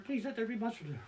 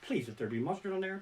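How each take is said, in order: First: Softer, higher desperate prayer; hushed anxious plea, rising in pitch; higher pleading whisper. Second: Soft desperate prayer under the breath; hushed anxious plea; pleading whisper. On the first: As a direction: plead more urgently under the breath. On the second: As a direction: beg quietly to himself. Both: Retold or imitated. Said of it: "I'm standing there going".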